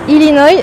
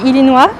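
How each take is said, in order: First: It is said with an attempted English pronunciation. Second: It is said with a French pronunciation. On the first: "I'm not sure how it's pronounced in English, but uh, I tried" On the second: "the way we say it in French would be Illinois"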